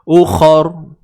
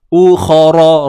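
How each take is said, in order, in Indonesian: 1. Kata ini berakhir pada r tanpa vokal. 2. Kata ini berakhir dengan a pendek setelah r. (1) "Bila kita nak berhenti kat sini, ra ni akan jadi apa dia? Sukun" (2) "Melainkan kalau kita sambung"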